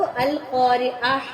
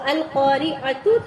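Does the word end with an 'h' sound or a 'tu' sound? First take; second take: h sound; tu sound. First: The word ends with a soft 'h' sound. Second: The word ends with a full 'tu' sound. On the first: The word is read with a stop at the end. "गोल ता को हा में बदल देते हैं" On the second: The word is read in its full connected form. "तो अल क़ारिअतु है"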